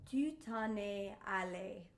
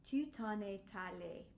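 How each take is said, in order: First: A glottal stop separates 'en' from 'es'. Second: A T sound links 'en' to 'es'. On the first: "that has a, gl- a glottal" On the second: "let's put the T back in"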